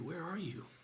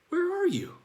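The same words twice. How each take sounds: First: It is asked in a sorrowful, tender tone. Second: It is asked in a puzzled, searching tone. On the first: The asker grieves a lost closeness with a loved one. "looking directly at Adam, face to face, eye to eye" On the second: The asker truly does not know the location. "Like, I don't know where you are"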